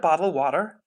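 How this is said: It is said in an American accent. "when Americans say an American says it, it's always more like"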